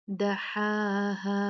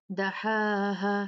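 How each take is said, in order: First: Very slow "दहाहा" with long held vowels; "दहाहा" chanted, long ending; two-count madd. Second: "दहाहा" with the last "हा" cut short; chanted "दहाहा", ending not held; wrongly short stop. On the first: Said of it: "दो count मद करके". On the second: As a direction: stop early on the final "हा" of "दहाहा". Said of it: "नहीं, ऐसे नहीं". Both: Shown as a demonstration.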